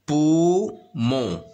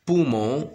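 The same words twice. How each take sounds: First: "Poumon" loud, in two long beats; drawn-out split "Poumon", first syllable loud. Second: Said in the usual way. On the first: Shown as a demonstration. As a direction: sound out "Poumon" as pou, pause, mon. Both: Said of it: "la syllabe الأولى فيها pou".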